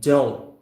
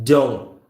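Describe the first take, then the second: No difference in how they are said.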